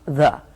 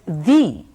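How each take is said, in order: First: The word ends in a short uh vowel. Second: The word ends in a long ee vowel. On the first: The next word starts with a consonant. "It's written T H E and it's pronounced the. And this is before consonants" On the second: The next word starts with a vowel. "they are pronounced uh, as the before vowels"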